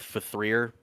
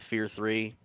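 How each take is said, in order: First: The title is said as just 'Fear'. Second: The title is said as 'Fear three'. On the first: The speaker calls it right. "We always called it Fear" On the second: The speaker calls it wrong. "Oh, sorry"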